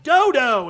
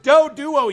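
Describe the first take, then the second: First: The name is said with two syllables. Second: The name is said with three syllables. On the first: The speaker calls it wrong. "the way they pronounced Doduo in Pokemon Stadium. He was like" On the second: The speaker calls it right. "it's not Dodo, it's Doduo"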